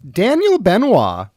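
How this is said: It is said with exuberant, showy flair.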